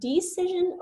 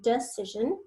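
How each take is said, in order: First: The first vowel is a long E sound. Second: The first vowel is a reduced schwa sound. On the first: "the E is making a long E sound" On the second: "or it's making a schwa"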